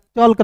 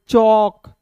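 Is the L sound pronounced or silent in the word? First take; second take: pronounced; silent. First: The L sound is pronounced in the word. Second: The L sound is silent in the word. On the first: The speaker calls it wrong. "चल कर नहीं पढ़ेंगे" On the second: The speaker calls it right. "इसे पढ़ेंगे चौक"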